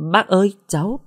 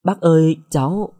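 First: Higher, faltering cry of shock; a girl stunned by her boyfriend's mother; stunned stammer. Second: Startled stammer. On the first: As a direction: stammer it out, caught off guard. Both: A narrator's reading. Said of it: "Uyển ngỡ ngàng".

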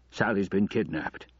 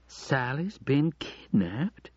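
First: Understated shock, falling at the end; aghast. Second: Slow, higher, rising question; disbelief. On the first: Father telling his wife about the kidnapping, mildly aghast. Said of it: "he said, aghast". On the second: Wife repeating her husband's news in disbelief. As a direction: draw it out, unable to believe it. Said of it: "in disbelief". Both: A narrator's reading.

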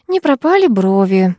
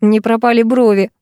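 First: Пропали stressed, said on autopilot; repeated mechanically. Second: Брови falling at the end; plain. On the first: A narrator's reading. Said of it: "машинально повторила я". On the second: Acted. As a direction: stress on брови. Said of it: "подхватил Макс".

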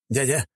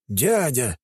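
First: Happy, eager call of Дядя; greeting Дядя with delight; joyful exclaim. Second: Startled, falling Дядя; Дядя in shocked disbelief; surprised. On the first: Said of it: "радостно воскликнул Пикардио". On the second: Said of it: "удивился он". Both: A narrator's reading.

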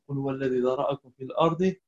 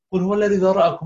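First: Said in the usual way. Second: الذي pushed up, higher and louder; corrective repetition. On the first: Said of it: "teacher repeats to correct". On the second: Shown as a demonstration. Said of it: "What does mean ذرأكم؟". (teacher models قل هو الذي ذرأكم higher and louder)

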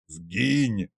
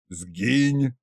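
First: «Сгинь!» softer and good-natured. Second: Said in the usual way. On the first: A narrator's reading. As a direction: shoo him off kindly with «Сгинь!». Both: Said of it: "добродушно повторил Кощей".

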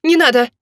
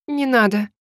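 First: Higher, urgent plea; alarmed cry. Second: Sobbing plea. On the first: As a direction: cry out to stop him. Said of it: "закричала я". (испуганный вскрик) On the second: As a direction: plead through a touch of tears. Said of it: "сквозь всхлипывание попросила я". (просьба сквозь лёгкое всхлипывание) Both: A narrator's reading.

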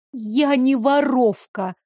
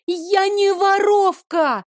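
First: Slow, deliberate denial. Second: High desperate shout. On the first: Girl calmly denies theft to the guard, slowly. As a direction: lay out each word slowly. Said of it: "медленно проговорила я". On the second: Girl shouts her innocence at the guard. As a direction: cry out Я не воровка high and slow. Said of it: "крикнула я". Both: A narrator's reading.

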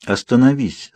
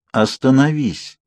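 First: Even, composed command; calm repeat. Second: Slow, firm command; calm force. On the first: Alice asking her brother again, calmly. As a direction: say it calmly, without forcing. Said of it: "спокойно повторила девушка". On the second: Alice insisting her speeding brother stop, firmly. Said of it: "в её голосе зазвучала сила". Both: A narrator's reading.

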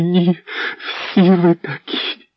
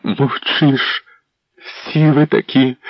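First: High, slow drawn-out cry; wife breaking into a despairing accusation; despairing outcry. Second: High accusing cry; wife shouting at the silent prince; angry shout. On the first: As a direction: stretch it out in bitter despair. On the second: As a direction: hurl the accusation. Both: A narrator's reading. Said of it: "Вона кричала".

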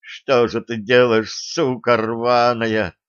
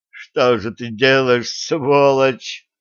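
First: Slow, tearful, broken words; sobbing. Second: Sobbing, crying out in anger; angry crying. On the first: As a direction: sob the words out. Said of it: "заплакал навзрыд Костя". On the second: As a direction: yell it through tears. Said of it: "рыдая, прокричал Костя". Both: A narrator's reading.

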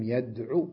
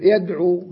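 First: يدعو ending in a short "u", waw dropped; short final vowel. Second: يدعو with a full long "uu" at the end; long final vowel. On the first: Teacher deleting the waw after lam, short final vowel on يدعو. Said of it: "عين مضمومة وأحذف الواو". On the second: Teacher giving the verb ending in waw, long final vowel on يدعو. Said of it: "آخره واو". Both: Shown as a demonstration.

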